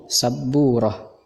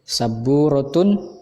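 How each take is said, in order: First: The word ends with a short 'oh' sound. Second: The word ends with a full 'tun' syllable. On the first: This is how native speakers say it. "tetapi kalau dibacakan menjadi sabburoh" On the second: This is the full written form. "Memang tulisannya sabburotun"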